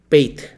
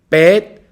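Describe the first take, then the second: First: The vowel glides as a diphthong. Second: The vowel is a single plain vowel. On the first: "디프통을 인정하면 베이트가 되고" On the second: "이중 모음이 인정이 안 되면 베트"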